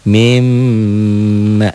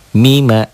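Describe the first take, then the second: First: The m is doubled, held and nasalized. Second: The m is short and not held. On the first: "double ditahan dan dengung" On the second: "Yang kiri mah dibacanya mima"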